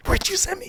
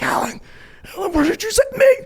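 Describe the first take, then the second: First: High-pitched retold wail; hammed-up squeal of complaint; mock panic. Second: High, loud panicked phone yell; hammed-up frantic complaint; mock panic. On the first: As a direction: plead in exaggerated alarm. Repeats panicked complaint to Alan. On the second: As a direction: cry out in exaggerated alarm. Retells panicked phone call to Alan.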